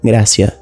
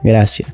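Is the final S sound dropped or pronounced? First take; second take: dropped; dropped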